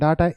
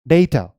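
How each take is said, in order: First: It is said with an Indian English 'daa-ta'. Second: It is said with British/American 'day-ta'.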